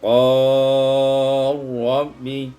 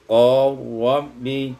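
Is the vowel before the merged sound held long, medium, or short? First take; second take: medium; short. First: The vowel before the merge is held medium. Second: The vowel before the merge is held short.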